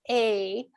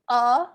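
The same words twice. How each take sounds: First: The vowel is a full, unreduced 'ay'. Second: The vowel is a short, reduced schwa. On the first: The speaker calls it wrong. "instead of" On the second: The speaker calls it right. "schwa sound"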